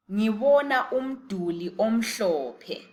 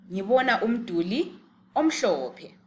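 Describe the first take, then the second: First: Ngibona umduli omhlophe said slowly, with the hl as a hissed lateral; slow teaching model. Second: Said in the usual way. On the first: Shown as a demonstration. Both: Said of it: "how would you say it in isiNdebele".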